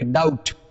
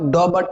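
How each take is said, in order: First: The b sound is left out of the word. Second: The b sound is pronounced in the word. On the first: The speaker calls it right. "बी का उच्चारण नहीं करेंगे आप" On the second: The speaker calls it wrong. "इसको आप डॉबट नहीं कहेंगे"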